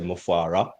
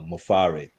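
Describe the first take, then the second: First: The name ends with an 'ah' vowel. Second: The name ends with an 'eh' vowel. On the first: The speaker calls it wrong. "most people, even leaders, um, say Mufara" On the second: The speaker calls it right. "it's E H, not A H. So it is uh, Mufare"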